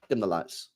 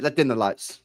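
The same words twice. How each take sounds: First: Hushed serious. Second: Said in the usual way. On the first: Shown as a demonstration. Streamer getting mock serious with chat, lower and hushed. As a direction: lower and softer, mock solemn. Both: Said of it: "let's be serious".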